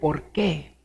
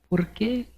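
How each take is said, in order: First: It is said in a defiant, confrontational tone. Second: It is asked in a pleading, anguished tone.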